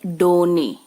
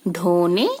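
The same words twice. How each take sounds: First: डोने with a plain unaspirated ड. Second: ढोने with a breathy aspirated ढ. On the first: Teacher repeating the unaspirated डोने for contrast. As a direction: say the ड in डोने without breath. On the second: Teacher repeating the aspirated ढ in ढोने. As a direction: push air after the ढ in ढोने. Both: Shown as a demonstration. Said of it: "यहाँ लिखा है".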